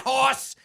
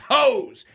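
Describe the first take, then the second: First: The vowel is a short 'aw' sound. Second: The vowel is a long 'oh' sound. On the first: The speaker calls it wrong. "It's not hoss" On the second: The speaker calls it right. "it's hose"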